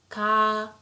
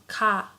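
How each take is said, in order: First: The vowel is held long. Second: The vowel is short. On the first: "it becomes double like this" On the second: "let's say we have sound ka"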